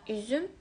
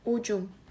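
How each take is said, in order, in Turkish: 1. Ünlüler ön yuvarlak ü sesleridir. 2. Ünlüler arka yuvarlak u sesleridir. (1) "Ü'de"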